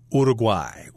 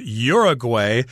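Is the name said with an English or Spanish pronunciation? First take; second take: Spanish; English. First: The name is said the Spanish way. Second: The name is said the English way.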